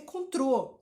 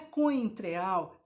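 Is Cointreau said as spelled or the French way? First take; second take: French way; as spelled. First: The word is said the French way, 'contrô'. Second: The word is sounded out as it is spelled. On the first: The speaker calls it right. "é contrô" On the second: The speaker calls it wrong. "Não é coentreal"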